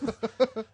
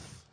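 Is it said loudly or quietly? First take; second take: loudly; quietly. First: It is said loudly. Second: It is said quietly.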